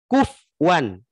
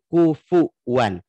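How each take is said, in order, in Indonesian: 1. Vokal setelah f dihilangkan: dua suku kata. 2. Vokal u mengikuti f: tiga suku kata. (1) "Jadi dibacanya kufwan, bukan kufuwan" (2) "Harusnya kan kufuwan"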